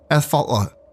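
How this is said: The name is said carefully and seriously. The speaker calls it wrong. "Let me let me actually try to take this name seriously"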